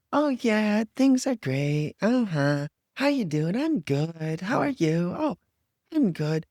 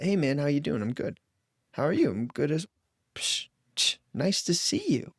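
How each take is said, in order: First: High, overbright fake cheer; fake exuberance. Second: Said in the usual way. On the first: Mocking the fake-positive friend, overbright cheer. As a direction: gush like everything is wonderful. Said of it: "this overwhelming exuberance of". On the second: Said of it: "it could sound just like that".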